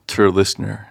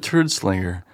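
First: The name sounds like 'Tur Listener'. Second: The name sounds like 'Turd Slinger'. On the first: The speaker calls it right. "Let's hear you say it correctly" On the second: The speaker calls it wrong. "he called me Turd Slinger"

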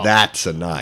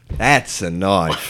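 First: It is said in his plain own accent. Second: It is said in a put-on Australian accent.

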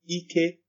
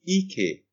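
First: The word is said with high tone. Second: The word is said with a non-high tone. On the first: It means power or strength. "for it to mean power, we have ike" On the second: It means buttocks. "for it to mean but, we have ike"

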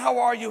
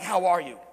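First: It is asked in a quick, casual way. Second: It is asked in a slow, sincere way.

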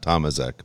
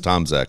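First: The name is said with an extra vowel. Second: The name is said without an extra vowel. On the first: The speaker calls it wrong. "not Tomaszak ... He threw an extra vowel in there" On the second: The speaker calls it right. "I think it's Tomaszak"

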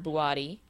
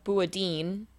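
First: The name ends with a vowel sound. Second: The name ends with an n sound. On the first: The speaker calls it right. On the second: The speaker calls it wrong.

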